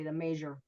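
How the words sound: 'Mayor' has a j-like sound.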